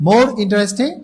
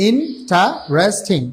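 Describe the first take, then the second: First: Said in the usual way. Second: Interesting very slowly split into separate beats; syllable by syllable. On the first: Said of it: "সেটাকে বলা হচ্ছে". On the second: Shown as a demonstration. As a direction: break interesting into in, ta, res, ting. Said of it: "একের অধিকবার উচ্চারিত হচ্ছে".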